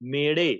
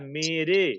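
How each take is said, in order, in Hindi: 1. बीच का व्यंजन फ्लैप्ड मूर्धन्य र है। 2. बीच का व्यंजन सादा टैप्ड र है। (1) "बट वो बोल रहे हैं जो दूसरा वाला लिखा है मेरे" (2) "पहले वाला है मेरे"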